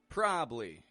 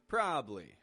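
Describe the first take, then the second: First: One syllable is dropped, making it short. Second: The same.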